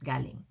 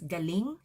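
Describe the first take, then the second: First: The stress is on the first syllable. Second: The stress is on the last syllable. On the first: It means something else. The speaker calls it wrong. "otherwise it's going to mean something else" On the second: It means skill or talent, used to say wow, awesome. The speaker calls it right. "Make sure that the stress is on the last syllable"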